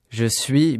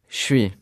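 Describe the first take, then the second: First: Every syllable is pronounced in full. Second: Sounds are dropped and run together.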